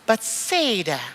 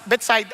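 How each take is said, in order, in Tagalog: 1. Binibigkas ang Bethsaida sa paraang Ingles. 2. Binibigkas ang Bethsaida sa paraang Hebreo. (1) "Sa English kasi" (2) "Pero sa Hebrew"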